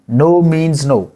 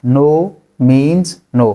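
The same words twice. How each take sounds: First: Said in the usual way. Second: Drawn out very slowly and clearly. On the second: Shown as a demonstration. Teacher repeats it very slowly for students. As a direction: stretch every word out. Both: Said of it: "नहीं मतलब नहीं".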